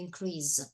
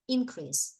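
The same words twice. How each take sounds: First: The stress is on the second syllable. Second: The stress is on the first syllable. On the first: It is used as a verb. "when it's a verb, it will be increase" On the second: It is used as a noun. "The stress is on the first syllable"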